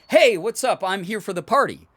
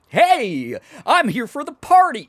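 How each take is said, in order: First: It is said in a big, exaggerated way. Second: It is said in a wildly over-the-top way.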